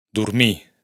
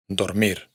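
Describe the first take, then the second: First: "Dormir" dicho "durmí", con u y sin erre final; catalán sin erre final. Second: Said in the usual way. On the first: Shown as a demonstration. ("Dormir" catalán, erre muda) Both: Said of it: "la R final no se pronuncia en los infinitivos".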